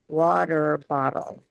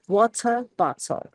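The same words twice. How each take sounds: First: American accent, with the T's softened to D. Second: British accent, with crisp, strongly released T's. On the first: "we soften our T's a lot to a D" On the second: "The British accents really emphasize their T's"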